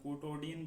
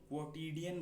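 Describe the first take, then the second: First: The second syllable has an 'o' vowel. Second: The second syllable has an 'i' vowel. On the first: The speaker calls it wrong. "मैं क्वोटोडियन बोलता हूँ क्योंकि मुझे आदत लग गई है" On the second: The speaker calls it right. "वैसे तो इसको क्वोटिडियन बोलते हैं"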